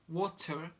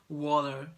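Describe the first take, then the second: First: The t is a clear, released t sound. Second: The t is a quick d-like flap. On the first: "You probably say water" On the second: "we say it's kind of D"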